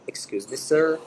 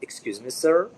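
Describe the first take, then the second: First: A slightly raised, polite "Excuse me, sir."; polite call to a waiter. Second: Said in the usual way. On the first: Shown as a demonstration. Teacher showing how a diner calls a waiter: polite call. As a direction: catch the waiter's attention politely. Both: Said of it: "مثلًا في مطعم".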